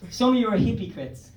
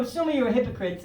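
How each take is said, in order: First: "hippie crits" said with a short "hippie" first; altered pronunciation. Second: Said in the usual way. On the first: Shown as a demonstration. Comedian corrects himself to the audience for a pun, "hippie crits" as two words.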